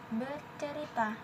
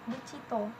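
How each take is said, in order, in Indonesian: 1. Bentuk baku, empat suku kata. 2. Bentuk Perawang, dipendekkan dan berakhiran o.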